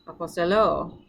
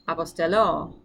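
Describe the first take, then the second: First: The stress is on the last syllable. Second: The stress is on the last syllable.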